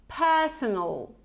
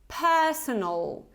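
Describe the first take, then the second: Both takes have the same delivery.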